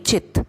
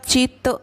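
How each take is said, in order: First: The word ends on a bare t sound. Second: The word ends with a short vowel after t. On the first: The speaker calls it right. "त नहीं चित ऐसे बोलेंगे" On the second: The speaker calls it wrong. "चित नहीं"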